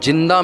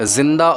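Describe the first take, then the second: First: The word begins with a j sound. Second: The word begins with a z sound. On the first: "जे और जीम का फ़र्क" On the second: "जे और जीम का फ़र्क"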